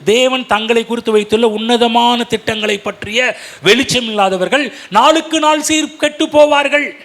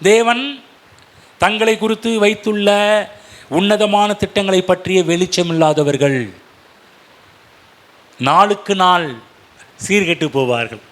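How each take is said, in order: First: It is said at a normal, continuous pace. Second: It is said slowly, with pauses between phrases.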